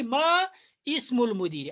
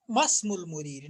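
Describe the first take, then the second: First: मा इस्मुल मुदीर with the इ sounded separately; मा इस्मुल मुदीर, alif spoken; wrong separated pronunciation. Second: मस्मुल मुदीर with the alif dropped, run together; मस्मुल मुदीर joined, silent alif; linked pronunciation. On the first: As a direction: pronounce मा and इस्मुल apart. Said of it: "न कि". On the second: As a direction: say मस्मुल as one word, no इ sound. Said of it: "न कि मा इस्मुल मुदीर". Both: Shown as a demonstration.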